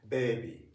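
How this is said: It is said with a Japanese-style vowel. The speaker calls it wrong. "most Japanese people who haven't studied English seriously tend to pronounce like"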